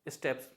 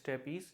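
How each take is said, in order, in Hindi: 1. यह शब्द एक छोटे अक्षर में बोला जाता है। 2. इस शब्द के अंत में एक अतिरिक्त 'ee' अक्षर है। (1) "करेक्टली प्रोनाउंस किया जाता है स्टेप्स" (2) "बहुत से लोग प्रोनाउंस करते हैं स्टेपीज, जो कि गलत है"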